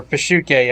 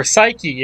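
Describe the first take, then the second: First: Pashuke said puh-SHOO-kay, the Greek way; episode's pronunciation. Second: Psyche said SY-kee, the English way; as written. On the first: Host gives the episode title as they say it, Pashuke, Greek pronunciation. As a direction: say Pashuke with a long "oo" and final "ay". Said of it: "as they say in the episode". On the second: Host reads the episode title as written, Psyche, English pronunciation. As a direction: say Psyche with a silent P and final "ee". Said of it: "if you just say what's written". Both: Shown as a demonstration.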